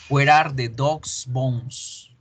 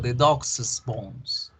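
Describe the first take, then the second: First: Dog's ends in a plain s sound. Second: Dog's gets an extra soft es syllable. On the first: One dog owns the bones. "Número uno" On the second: Several dogs own the bones. "Hacemos que el apóstrofe se convierta en un es. The dog's, pero suavecito"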